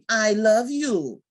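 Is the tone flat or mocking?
mocking. It is said in a mocking, exaggerated way.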